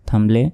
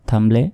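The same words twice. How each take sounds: Both takes have the same delivery.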